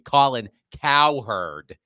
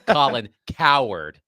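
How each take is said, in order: First: The surname ends with a 'herd' sound. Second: The surname ends with a 'ward' sound. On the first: The speaker calls it right. "I'm sorry, Colin Cowherd" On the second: The speaker calls it wrong. "mispronouncing Colin Cowherd, not Colin Coward, like he's he's a big baby"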